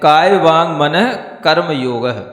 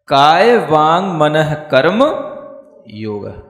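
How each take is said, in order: First: Karma and yoga run together without a break. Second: A pause separates yoga from the preceding words. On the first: Karma and yoga form one compound. The speaker calls it wrong. "ऐसे नहीं पढ़ना, ये भी एक गलत तरीका है पढ़ने का।" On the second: Karma belongs with manah; yoga stands on its own. The speaker calls it right. "योग को अलग रखना है, मनः के साथ तक कर्म जोड़ना है"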